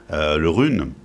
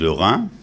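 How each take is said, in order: First: The name ends with an oral 'une' sound. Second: The name ends with a nasal 'in' sound. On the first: This is the Breton pronunciation. "j'ai prononcé à la bretonne" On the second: This is the more general pronunciation. "qui est une forme plus générale"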